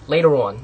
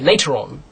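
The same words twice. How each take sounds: First: The t in the middle sounds like a d. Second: The t in the middle is a crisp t. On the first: "T's usually turn into D's" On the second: "in the British accent, you know, you you say later on"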